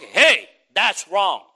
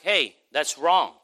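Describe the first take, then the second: First: It is said in a stern, forceful tone. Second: It is said in a mild, gentle tone.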